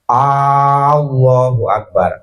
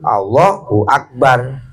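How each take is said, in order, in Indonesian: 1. Bunyi A yang pertama panjang. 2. Bunyi A yang pertama pendek.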